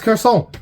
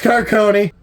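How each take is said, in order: First: The name is given a French-style pronunciation. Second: The name is given a plain English-style pronunciation. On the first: The speaker calls it wrong. "it had like a French pronunciation to it" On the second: The speaker calls it right. "no, it's not, it's Carcone"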